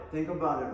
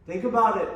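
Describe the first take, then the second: First: Said in the usual way. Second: A loud, higher burst on about; loud push. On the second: Shown as a demonstration. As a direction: bark it out louder with a falling about.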